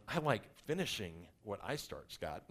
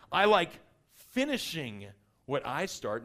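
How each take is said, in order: First: Imitating his wife. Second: "I like" punched loud, then "finishing what I start" drawn out slowly; a loud start easing into a slow, deliberate finish; emphatic declaration. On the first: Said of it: "That's my wife looking at me going". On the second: Shown as a demonstration. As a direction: hit "I like" hard and stretch "finishing". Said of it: "did y'all hear the way I said that?".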